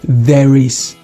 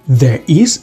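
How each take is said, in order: First: A linking r joins the two words. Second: The words are said without a linking r.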